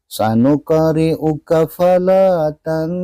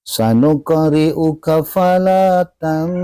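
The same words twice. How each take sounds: The two takes are said the same way.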